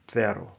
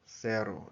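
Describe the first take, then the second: First: The first consonant is a th sound. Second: The first consonant is an s sound.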